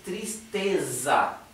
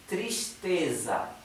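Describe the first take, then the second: First: The sound before the t is a plain s. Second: The sound before the t is sh. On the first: "Así que esto es tristeza" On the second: "en Río de Janeiro dirían tristeza. La S esta, la S anterior a la T, se pronuncia sh"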